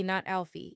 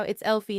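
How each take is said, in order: First: "Alfie" with a short a as in Al; "Alfie", opening on an a sound; mistaken name. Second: "Elfie" with a short e as in elf; "Elfie", opening on an eh sound; correct name. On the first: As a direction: say "Alfie" starting like "Al". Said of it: "it's Elfie, not Alfie". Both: Shown as a demonstration.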